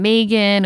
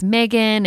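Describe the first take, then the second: First: "Megan" with long ee, MEE-gan; pronunciation demo. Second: "Megan" with short e, MEG-an; pronunciation demo. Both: Shown as a demonstration. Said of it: "There's different ways to pronounce".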